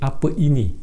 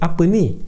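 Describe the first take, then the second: First: The second word has two syllables, ini. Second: The second word is one syllable, ni. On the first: "Instead of saying apa ini" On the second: "you would say apa ni"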